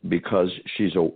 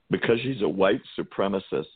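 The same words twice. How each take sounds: First: Said in the usual way. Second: Slightly raised, barely straight-faced; scornful mock-serious. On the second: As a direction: say the accusation as if it's absurd. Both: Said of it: "can't even say it with a straight face".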